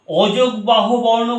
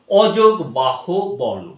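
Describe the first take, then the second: First: Said in the usual way. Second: অযোগ বাহু বর্ণ drawn out, word by word; slow, separated words. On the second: Shown as a demonstration. Teacher breaking down the term for students, slow and separated. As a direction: spell out each part of অযোগ বাহু বর্ণ slowly. Term repeated slowly to explain it.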